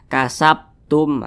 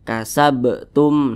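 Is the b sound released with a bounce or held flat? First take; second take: flat; bounced. First: The b sound is held with no bounce. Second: The b sound is released with a bounce. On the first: The speaker calls it wrong. "tidak ada pantulannya. Itu salah" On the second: The speaker calls it right. "harus ada pantulannya"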